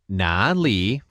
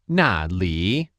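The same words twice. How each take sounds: First: The first syllable has a low dipping tone. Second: The first syllable has a sharp falling tone. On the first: It means where. "for where" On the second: It means there. "for there"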